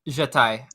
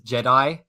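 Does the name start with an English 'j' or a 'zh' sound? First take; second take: zh; English j. First: It starts with a buzzing 'zh' sound. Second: It starts with a plain English 'j' sound. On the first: The speaker calls it right. "it's a Z J H sound" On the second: The speaker calls it wrong. "my old D M pronounced it as Jedi"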